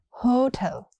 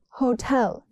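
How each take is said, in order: First: The stress is on the first syllable. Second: The stress is on the second syllable. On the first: The speaker calls it wrong. "not hotel" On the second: The speaker calls it right. "Stress is on the second syllable"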